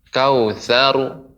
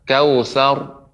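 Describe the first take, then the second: First: An extra u vowel is added at the end. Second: The ending is said with pushed-out rounded lips. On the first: "tidak boleh menjadi domah" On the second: "tidak boleh juga dimonyongkan"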